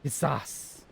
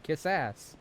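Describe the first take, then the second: First: "ass" stressed, like quizás; "Kiss ass." with "ass" punched; stress on second syllable. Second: "ass" given the weight, said like quizás; "Kiss ass." landing on "ass"; stress on second syllable. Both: Shown as a demonstration. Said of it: "Emphasis second syllable".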